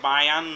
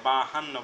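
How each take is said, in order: First: The middle consonant is a y glide. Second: The middle consonant is an h sound. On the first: The speaker calls it wrong. "অনেকে বায়ান্ন" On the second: The speaker calls it right. "এটা হবে বাহান্ন, ব আকার হ আকার দন্ত নয় নয়"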